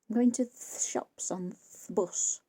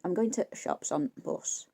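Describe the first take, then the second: First: The article is a short th sound. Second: The article is only a glottal stop. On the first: It is how a very old relative spoke. "she used to say, th-" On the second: It is how younger people speak. "more of a glottal stop than anything really"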